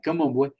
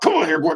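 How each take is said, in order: First: The tone sounds warm and gentle. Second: The tone sounds harsh and threatening.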